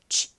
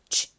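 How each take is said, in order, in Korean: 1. 약하게 바람 빠지는 소리예요. 울림이 거의 없어요. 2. 약하게 바람 빠지는 소리예요. 울림이 거의 없어요.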